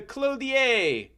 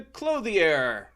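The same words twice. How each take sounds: First: Clothier ending in a long French "ay"; mock-French pronunciation. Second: Said in the usual way. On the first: Shown as a demonstration. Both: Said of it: "the clothier in French".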